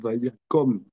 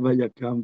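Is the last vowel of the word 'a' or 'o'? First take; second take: o; a. First: The last vowel sounds like 'o'. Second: The last vowel sounds like 'a'. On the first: The speaker calls it right. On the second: The speaker calls it wrong. "c'est pas Vayakam"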